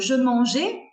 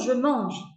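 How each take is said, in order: First: The final vowel is pronounced like é. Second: The final vowel is silent. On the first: The speaker calls it wrong. "quand l'étudiant dit" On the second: The speaker calls it right. "ah non non"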